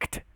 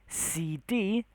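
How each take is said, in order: First: It is read as a single word. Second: Each letter is said separately. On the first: The speaker calls it wrong. "not ct" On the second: The speaker calls it right. "We say C D"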